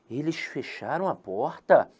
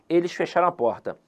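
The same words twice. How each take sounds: First: It is said with question intonation. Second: It is said with statement intonation. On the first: It is asked as a question. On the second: It is stated as a fact.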